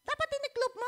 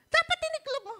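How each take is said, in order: First: High, pointed scolding imitation; imitating wife's tone. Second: High, loud scolding imitation; imitating wife's scolding. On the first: Preacher imitating his wife's correcting tone, high and pointed. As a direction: play the wife correcting him, sharp and high. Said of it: "Kasi ang kanyang tono". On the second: Preacher replaying wife's scolding, high and loud. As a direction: throw it out like an annoyed wife. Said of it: "Sabi niya sa akin".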